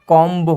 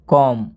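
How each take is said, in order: First: The word ends with an audible b sound. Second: The word ends in m with no b. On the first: The speaker calls it wrong. "ये उच्चारण बिल्कुल गलत हो जाएगा" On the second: The speaker calls it right. "इसमें बी का उच्चारण नहीं हो रहा है"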